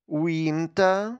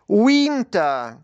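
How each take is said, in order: First: The word is said at a medium volume. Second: The word is said loudly. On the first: "Тихіше" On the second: "Голосно"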